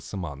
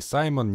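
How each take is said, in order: First: The name is said as Syman, with a 'y' vowel. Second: The name is said as Saimon, with an 'ai' diphthong. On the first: The speaker calls it right. "а именно Сыман" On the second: The speaker calls it wrong. "не Саймон"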